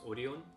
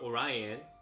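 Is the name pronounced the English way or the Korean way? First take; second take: Korean; English. First: The name is pronounced in a Korean way. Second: The name is pronounced in an English way. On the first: "It's pronounced Orion in Korean" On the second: "There's Orion or Orion"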